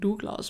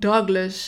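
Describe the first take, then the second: First: The name is said with a Dutch pronunciation. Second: The name is said with an English pronunciation. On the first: "want het is gewoon Douglas" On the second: "het is natuurlijk ook gewoon een Engelse naam"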